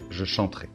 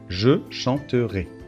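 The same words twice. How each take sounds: First: The phrase is said at a faster pace. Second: The phrase is said at a slower pace.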